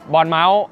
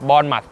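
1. เริ่มด้วย 'born' และลงท้ายด้วย 'mouse' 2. เริ่มด้วย 'born' และลงท้ายด้วย 'muth' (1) "ไม่ใช่บอนเมาส์ไม่ใช่นะครับ" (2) "สำเนียงให้ถูกต้องด้วยนะครับ"

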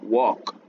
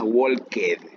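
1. La terminación -ed suena como una t simple. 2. La terminación -ed no es un simple sonido t. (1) "Esta ed en este caso suena como t" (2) "No es walked"

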